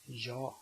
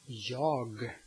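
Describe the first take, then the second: First: The word ends without a g sound. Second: The word ends with a g sound. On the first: "you just say ja" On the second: "The first is jag"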